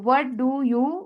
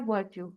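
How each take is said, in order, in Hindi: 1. 'do' शब्द साफ़ तौर पर उच्चारित होता है। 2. 'do' शब्द पूरी तरह छोड़ दिया जाता है। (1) "व्हाट डू यू की बजाय" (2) "डू को बिल्कुल खा जाते हैं"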